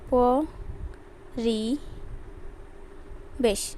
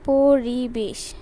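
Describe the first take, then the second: First: Each syllable is said separately with pauses. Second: The word is said smoothly without breaks.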